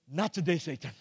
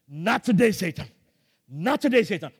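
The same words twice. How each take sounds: First: Said in the usual way. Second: Louder ringing "Not today"; defiant declaration. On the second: Retold or imitated. Preacher defying Satan during the shock, ringing rebuke. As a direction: rebuke Satan with rising force.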